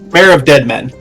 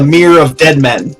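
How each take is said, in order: First: The first word rhymes with 'care'. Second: The first word rhymes with 'here'. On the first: The speaker calls it right. "but it's Mare" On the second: The speaker calls it wrong. "I was pronouncing it Mere"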